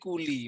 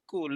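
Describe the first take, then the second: First: The word ends with a final i vowel. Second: The word ends on the consonant l. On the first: A vowel is added to join it to the next word. "Kuli tu dia dah kompromi untuk menyambung bacaan" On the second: This is the original form of the word. "Kul tu kan mati lam"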